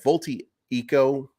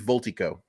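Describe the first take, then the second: First: The name is said as four separate syllables. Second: The name is said as three syllables. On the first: The speaker calls it wrong. "it sounds like too many e e right there" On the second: The speaker calls it right. "I think it's going to be Voltico"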